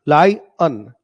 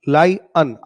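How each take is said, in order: The two takes are said the same way.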